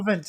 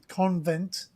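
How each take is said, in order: First: It is said without an n before v. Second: It is said with an n before v. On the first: The speaker calls it right. "it's Covent" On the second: The speaker calls it wrong. "It's not it's not con- convent, which people pronounce it wrong"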